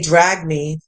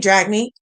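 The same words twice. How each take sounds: First: It is said as a falling command. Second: It is said as a rising question.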